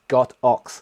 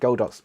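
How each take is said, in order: First: The name is split into 'god' and 'ox'. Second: The name is blended together as one word. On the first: This follows the Chinese meaning of the name. The speaker calls it right. "but it's not, it's God Ox" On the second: This is the common way people say it. The speaker calls it wrong. "that's how they pronounce it"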